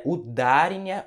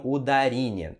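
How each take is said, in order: First: "udarinha" with a strong DA, u-DA-rinha; "udarinha" stressed u-DÁ-ri-nha; stress on middle syllable. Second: "udarinha" with a strong RI, uda-RI-nha; "udarinha" stressed u-da-RÍ-nha; stress on later syllable. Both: Shown as a demonstration. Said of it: "qual é a sílaba mais forte".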